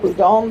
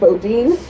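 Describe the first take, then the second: First: The name is said the founder's own way. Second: The name is said the local way. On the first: "He pronounced it Boudin" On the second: "The locals say Boudin, Bodine"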